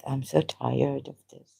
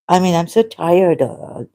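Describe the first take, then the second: First: Much softer, tired sigh of a line; weary and quiet. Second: Said in the usual way. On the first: Real, not acted. To viewers, softer, worn-out confession. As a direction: let the fatigue drain the voice.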